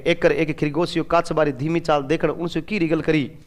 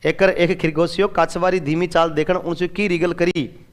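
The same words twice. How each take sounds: First: A soft, plain read of a Rajasthani sentence. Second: The same Rajasthani sentence read again, a little fuller. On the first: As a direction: read the line in everyday Rajasthani. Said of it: "जैसे राजस्थानी में अपन पढ़ते हैं". (राजस्थानी में धीरे से पढ़ना) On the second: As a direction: repeat the Rajasthani line as a model. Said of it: "ये राजस्थानी है।". (राजस्थानी वाक्य दोबारा पढ़ना) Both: Shown as a demonstration.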